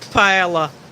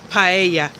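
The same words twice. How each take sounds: First: The double L is sounded like an L. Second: The double L is sounded like a Y. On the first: The speaker calls it wrong. "as some like to pronounce it" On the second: The speaker calls it right. "the double L in Spanish is pronounced like a Y"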